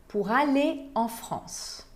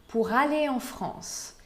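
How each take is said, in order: No difference in how they are said.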